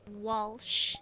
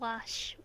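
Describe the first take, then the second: First: The name is said with an L sound. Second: The name is said without an L sound. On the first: The speaker calls it right. "There's an L in there" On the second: The speaker calls it wrong. "Not Wash"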